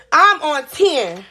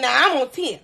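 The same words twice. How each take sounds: First: Each word drawn out slowly for emphasis; I'm on ten, said slowly and heavily; slow emphatic repeat. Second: Said in the usual way. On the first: Real, not acted. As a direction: lean on I'm on ten to show how mad you are.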